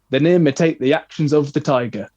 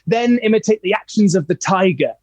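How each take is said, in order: First: It is delivered flatly, without energy. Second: It is delivered with lively, rhythmic energy. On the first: The speaker calls it wrong. "How boring is that?" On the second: The speaker calls it right. "It sounded like, oh, something's happening. This is exciting"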